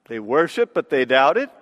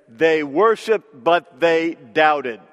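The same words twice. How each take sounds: First: Rising on "worshiped" and on "doubted", lower in pitch; lowered voice with a questioning rise at the end of "doubted"; puzzled question. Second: Slow falling statement, worshiped and doubted both falling; slow, even statement closing down on "doubted"; stated flatly. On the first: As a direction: ask it in disbelief: "They worshiped, but they doubted?". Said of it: "Sounds crazy". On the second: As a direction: read it as a plain flat fact: "They worshiped, but they doubted.". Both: Shown as a demonstration.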